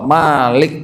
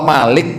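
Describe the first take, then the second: First: "Malik" with "Ma" drawn out; long MA. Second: "Malik" with a short "Ma"; don't stretch the first vowel of "Malik". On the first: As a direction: hold the first vowel of "Malik" long. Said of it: "Kalau Malik panjang". ("Malik" dengan Ma dipanjangkan) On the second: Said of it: "Kalau Malik pendek". ("Malik" dengan Ma pendek) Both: Shown as a demonstration.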